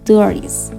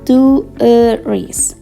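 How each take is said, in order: First: The word is said quickly and compactly. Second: The word is said slowly and drawn out. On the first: "Kalau dicepatkan" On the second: "kalau dilambatkan"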